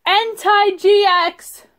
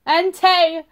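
First: Drawn-out delighted announcement; higher, slow, thrilled; excited. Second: Said in the usual way. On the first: Real, not acted. Excited card pull. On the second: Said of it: "Sorry, people".

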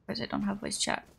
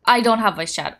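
First: Unvoiced whisper to herself. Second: Plain. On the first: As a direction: whisper it to yourself. Repeated under breath. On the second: Louder declaration. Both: Real, not acted.

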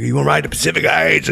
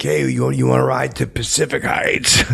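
First: Loud higher call, punching Heights; calling out again. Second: Loud call from a car window. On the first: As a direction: holler the joke louder the second time. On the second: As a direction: holler at a jogger passing by. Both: Retold or imitated. Calling out from car.

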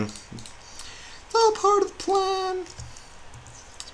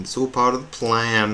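First: Very high, drawn-out silly voice; sing-song it way up in falsetto, slowly; tiny high-pitched echo of the line; squeaky falsetto. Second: Said in the usual way. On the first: Pretend.

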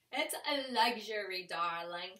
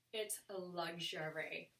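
First: Lightly put-on "darling" socialite voice, a little louder; mock-glamorous repeat, playing it up; hint of a grand diva; playful luxury diva. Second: Said in the usual way.

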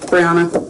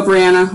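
First: "Brianna" said as bree-AH-nuh; "Brianna" with the middle a as in "father"; pronounced bree-AH-na. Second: "Brianna" said as bree-ANN-uh; "Brianna" with ANN in the middle; pronounced bree-ANN-a. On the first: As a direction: say "Brianna" with a broad AH. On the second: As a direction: say "Brianna" with a short a as in "cat". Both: Shown as a demonstration. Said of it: "is supposed to be Brianna".

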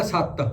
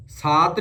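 First: ਸੱਤ with short a and held double t; short vowel in ਸੱਤ. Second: ਸਾਤ with long open aa, Hindi style; long vowel in ਸਾਤ. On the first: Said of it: "ਇਹਨੂੰ ਬੋਲਣਾ ਸੱਤ". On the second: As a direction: stretch the aa in ਸਾਤ, single t. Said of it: "ਸਾਤ ਨਹੀਂ ਬੋਲਣਾ". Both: Shown as a demonstration.

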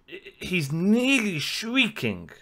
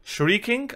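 First: "shrieking" stretched slowly, rising then falling; drawn-out emphasis. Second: "Shrieking" pitched high with a rising end; unsure question. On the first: Reactor describing the singer's high notes, "shrieking" slowly stretched. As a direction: draw out "nearly shrieking" very slowly. Searching for the word, drawing it out. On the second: Reactor doubting his own word choice, "Shrieking" as a rising question. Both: Real, not acted.

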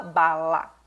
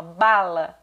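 First: "bala" chopped into BA-LA, both drawn out; syllable by syllable. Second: Said in the usual way. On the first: Shown as a demonstration. Teacher showing how a child doesn't speak, syllable by syllable. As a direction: separate bala into two stretched syllables. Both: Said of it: "Ela não fala bala".

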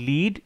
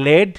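First: লিড said with a long ee, like "leed"; long-ee pronunciation. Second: লেড said with a short e, like "led"; short-e pronunciation. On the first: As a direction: say লিড to rhyme with "need". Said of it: "লিড মানে direction দেওয়া". (লিড, দীর্ঘ ই ধ্বনি দিয়ে উচ্চারণ) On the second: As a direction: say লেড to rhyme with "bed". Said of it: "লেড মানে metal". (লেড, হ্রস্ব এ-কার দিয়ে উচ্চারণ) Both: Shown as a demonstration.

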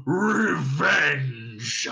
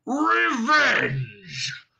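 First: Louder scornful dragon snort; scornful dragon snort on Revenge!. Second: Much higher and louder furious dragon roar; thundering dragon roar on Revenge!. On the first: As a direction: spit the word out with contempt. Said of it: "he snorted". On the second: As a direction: bellow it to shake the hall. Dragon roars in rage. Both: Acted.

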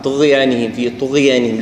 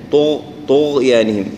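First: "طغيانهم" with gh slid quickly into the y; thinned, merged ghayn. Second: "طغيانهم" slow, gh held out distinctly; clearly shown ghayn. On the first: Teacher showing the mistake, gh thin and blurred. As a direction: skim over the gh in "طغيانهم". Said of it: "ندمجها أو، أو نرققها". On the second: Teacher telling learners to show it, held gh. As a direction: stop and sound the gh in "طغيانهم". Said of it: "نحاول إن، إن نظهرها". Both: Shown as a demonstration.

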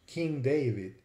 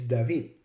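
First: King David as "king DAY-vid"; English David. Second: David as "dah-VEED"; Hebrew David. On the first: Lecturer naming the king, David the English way, DAY-vid. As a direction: say David with an ay, stressed first. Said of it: "of the word David". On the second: Lecturer showing the original Hebrew, David as dah-VEED. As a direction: say David with an ah, stressed on the end. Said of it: "original pronunciation in Hebrew". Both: Shown as a demonstration.

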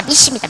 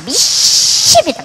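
First: Said in the usual way. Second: 믿습니다 stretched very slow, higher and louder; drawn-out fervent cry. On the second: Retold or imitated. Mother's prayer peaks, 믿습니다 stretched slow and loud. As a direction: wail 믿습니다 out long and loud. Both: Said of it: "막 이러면서 막".

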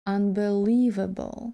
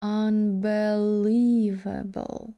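First: "Unbelievable" joined up, still slowish, stressed twice; double stress, quicker. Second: "unbelievable" very slowly, stressed twice; double stress. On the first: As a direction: model "Unbelievable" carefully with two stresses. (трохи швидше "Unbelievable" з двома наголосами) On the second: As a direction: stretch "unbelievable" out, two stresses for learners. (дуже повільно "unbelievable" з двома наголосами) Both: Shown as a demonstration. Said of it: "я буду двічі наголошувати".

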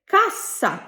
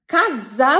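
First: কাসা with a sharp, doubled unvoiced s; correct pronunciation. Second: কাজা with a voiced, buzzing z; wrong pronunciation. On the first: Teacher correcting a mistake, কাসা with crisp s. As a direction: say কাসা higher, hissing s, falling at the end. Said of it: "সঠিক উচ্চারণ হবে". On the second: Teacher repeating the learner's mistake, কাজা with z. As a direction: say কাজা slowly, the s turned into z. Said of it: "ভুল হয়েছে।". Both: Shown as a demonstration.

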